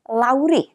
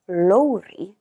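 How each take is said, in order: First: The vowel is said with less lip rounding. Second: The vowel is said with rounded lips. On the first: The speaker calls it wrong. "is often mispronounced as Lowry" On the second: The speaker calls it right. "the Welsh name Lowry ... So just remember to use the rounded O"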